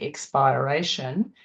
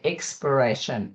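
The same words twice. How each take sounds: First: The stress stays where it falls in expire. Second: The stress moves to a different syllable. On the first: The speaker calls it wrong. "We don't say expiration" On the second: The speaker calls it right. "we say expiration"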